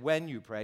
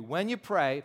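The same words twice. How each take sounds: First: "When" stands out, then the phrase falls; stress on WHEN. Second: Said in the usual way. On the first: Shown as a demonstration. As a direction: lean on the word "When". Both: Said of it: "did you notice he said".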